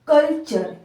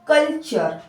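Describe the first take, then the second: Both takes have the same delivery.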